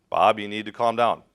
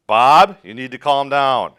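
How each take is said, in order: First: Said in the usual way. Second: Louder, commanding call; firm shout. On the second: Acted. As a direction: cut through his panic by raising your voice. Rescuer raises voice to patient.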